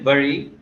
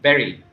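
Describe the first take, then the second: First: The word does not sound like 'berry'. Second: The word sounds like 'berry'. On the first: The speaker calls it wrong. "usually we say bury" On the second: The speaker calls it right. "but it is pronounced as berry"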